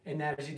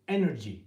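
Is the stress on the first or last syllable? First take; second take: last; first. First: The stress falls on the last syllable. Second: The stress falls on the first syllable. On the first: The speaker calls it wrong. "Enerji değil" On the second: The speaker calls it right. "Vurguyu düşün, E, energy"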